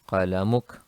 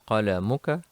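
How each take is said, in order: First: The word ends with a consonant. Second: The word ends with a short vowel. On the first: The speaker stops after the word. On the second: The speaker goes on without stopping.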